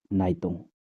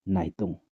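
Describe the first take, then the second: No difference in how they are said.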